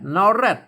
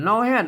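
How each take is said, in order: First: The second word begins with an r sound. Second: The second word begins with an h sound. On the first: This is the Central Thai form. "ถ้าเป็นอันภาษาไทยเป็นแรด" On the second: This is the Northern Thai form. "ภาษาละนามนอแฮด"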